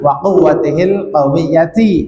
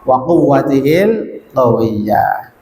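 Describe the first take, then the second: First: The last word ends with a full ti vowel. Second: The last word ends with a soft h sound. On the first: This is the original full form. "aslinya memang" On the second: This is the form used when stopping. "karena waqaf"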